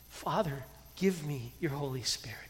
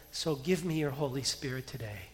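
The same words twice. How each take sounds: First: Soft, hushed whisper to God; whispered prayer. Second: Said in the usual way. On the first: Shown as a demonstration. Pastor showing the congregation how to pray, whispered. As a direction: breathe the prayer like a secret.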